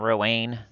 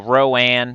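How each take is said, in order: First: The name ends with a sound like Wayne. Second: The name ends with a sound like Anne. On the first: The character would be male. The speaker calls it wrong. "not Roanne" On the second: The character is female. The speaker calls it right. "I think is the way you say it"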